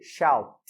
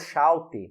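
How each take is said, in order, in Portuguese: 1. A palavra termina claramente com o som de T. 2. A palavra termina com uma vogal extra depois do T. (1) "Terminou com som de T" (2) "Você está pronunciando errado"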